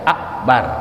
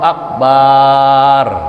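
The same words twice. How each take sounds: First: The vowel after the b is short. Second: The vowel after the b is drawn out long. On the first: The speaker calls it right. "Pendek kan?" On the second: The speaker calls it wrong. "Jangan kita panjangin Allahu Akbar. Salah juga"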